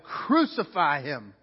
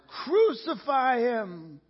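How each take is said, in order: First: Slow, weighty mock shout; measured retold shout, falling at the end; crowd's shout, restrained. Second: High, long drawn-out shout; stretched, high-pitched crowd cry; roaring mob. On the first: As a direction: draw the cry out slowly, without full force. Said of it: "they shouted". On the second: Acted. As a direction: roar it slowly like a mob. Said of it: "the mob roared even louder".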